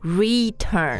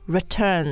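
First: The first syllable has a full, clear vowel. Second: The first syllable has a weak schwa vowel. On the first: The speaker calls it wrong. "而不是 return" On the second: The speaker calls it right. "它就是刷 sound 的 R"

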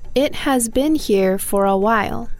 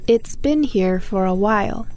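First: It and has are said as two full words. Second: It and has merge into one syllable ending in s.

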